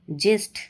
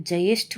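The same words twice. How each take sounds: First: ज्येष्ठ said "jesth", without the y; wrong pronunciation. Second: Said in the usual way. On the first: Shown as a demonstration. Teacher rejecting a mistake, ज्येष्ठ said "jesth". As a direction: drop the y from ज्येष्ठ. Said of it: "नहीं होता है". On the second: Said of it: "होता है".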